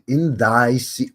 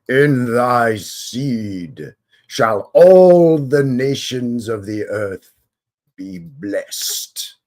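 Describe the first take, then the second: First: It is said in his normal voice. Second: It is said in a put-on God voice.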